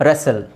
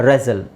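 The two takes are said the same way.

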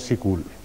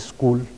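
First: A short i vowel comes after the s. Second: A short i vowel comes before the s. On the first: "इसके नीचे जेर लगा के लिख और बोल लेते हैं" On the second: "इससे पहले हमजा लगा लेते हैं और उसके नीचे जेर लगा लेते हैं"

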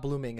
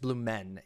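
First: The second syllable ends with an 'ing' sound. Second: The second syllable ends with an 'en' sound. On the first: The speaker calls it wrong. "It's not Blooming" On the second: The speaker calls it right. "It's Blumen. E-N"

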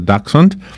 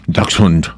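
First: It is said with a plain English accent. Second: It is said with a German accent.

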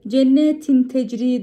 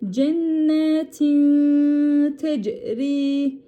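First: The n before the t is pronounced clearly. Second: The n before the t is held nasally. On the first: The speaker calls it wrong. "değil" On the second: The speaker calls it right. "tini tuttuk"

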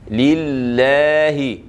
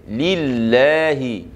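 Both takes have the same delivery.

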